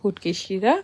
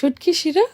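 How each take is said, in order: First: It is said in a Sylheti pronunciation. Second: It is said in standard Bengali pronunciation. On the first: "but তারা বলে" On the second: "এটা হচ্ছে শুটকি শিরা"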